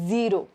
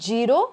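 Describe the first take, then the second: First: The word begins with a z sound. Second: The word begins with a j sound. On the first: The speaker calls it right. "you have to say zero" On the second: The speaker calls it wrong. "instead of saying zero"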